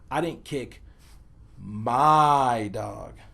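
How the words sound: The word my carries the emphasis. A different dog was kicked. "place the emphasis on the word my"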